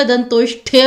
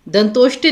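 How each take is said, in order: First: दंतोष्ठ्य as "dantoshthya"; aspirated th. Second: दंतोष्ट्य as "dantoshtya"; unaspirated t. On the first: Teacher correcting students, दंतोष्ठ्य with aspirated ठ. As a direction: put a puff of breath on the ठ in दंतोष्ठ्य. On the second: Teacher showing the misspelling, दंतोष्ट्य with ट. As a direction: say दंतोष्ट्य with plain ट. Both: Shown as a demonstration. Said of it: "ट की जगह ठ आएगा".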